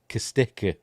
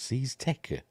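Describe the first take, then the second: First: The name begins with a hard k sound. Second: The name begins with a soft s sound. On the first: "so you'd think it'd be a hard C" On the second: "That's how you pronounce it"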